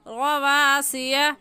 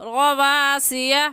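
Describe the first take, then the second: No difference in how they are said.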